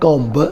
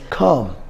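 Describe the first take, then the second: First: The final b sound is pronounced. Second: The final b sound is silent. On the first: The speaker calls it wrong. "This is not comb" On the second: The speaker calls it right. "B is also silent here, and we should call this comb"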